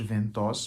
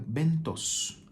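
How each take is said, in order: First: The name begins with a V sound. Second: The name begins with a B sound. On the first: "para uma pronúncia mais brasileirada" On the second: "a pronúncia talvez seja Bentos"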